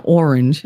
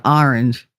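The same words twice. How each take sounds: First: "orange" opening with an "or" sound; other pronunciation of orange. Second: "orange" opening with an open "ah"; own pronunciation of orange. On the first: Showing how not to say it, "orange" as OR-inj. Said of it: "It's an orange". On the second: Correcting the word to her way, "orange" as AR-inj. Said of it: "Not an orange". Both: Shown as a demonstration.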